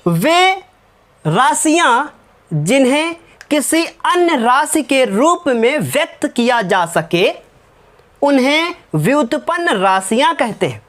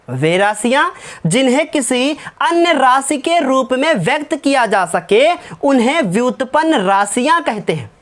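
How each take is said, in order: First: Slow, word by word, so students can write; slow dictation. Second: Said in the usual way. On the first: Shown as a demonstration. Teacher dictating a definition to the class, slow and deliberate. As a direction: dictate it slowly and evenly. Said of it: "लिखो, मैं बोल रहा हूँ". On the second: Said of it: "मैं बोल रहा हूँ".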